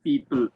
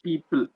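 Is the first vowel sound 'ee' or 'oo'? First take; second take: ee; ee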